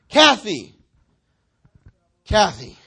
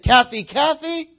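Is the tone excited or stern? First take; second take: stern; excited. First: It is said sternly, like a scolding. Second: It is called out with excitement.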